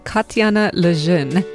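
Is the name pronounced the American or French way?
French. The name is pronounced with French sounds. "That's my attempt at the French pronunciation"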